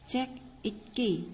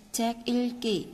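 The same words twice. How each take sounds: First: "읽기" said as "ik-ki", without the l; mistaken reading. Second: "Ilki" said il-ki, the l sounded; corrected reading. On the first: Teacher misreading aloud before correcting, "읽기" as "ik-ki". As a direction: drop the ㄹ in "읽기". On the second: Teacher modelling the corrected phrase, "Ilki" with a clear l. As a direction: keep the l in "Ilki", falling at the end. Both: Shown as a demonstration. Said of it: "읽기 mới đúng nha".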